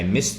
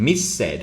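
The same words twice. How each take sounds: First: The ending is dropped, leaving no final sound. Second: The ending is said as an extra syllable. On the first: "I'm just not pronouncing anything at all" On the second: "I'm adding this extra syllable over here"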